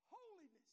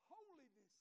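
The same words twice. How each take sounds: First: Emphatic shout. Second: Said in the usual way. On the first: Acted. Preacher repeats it louder.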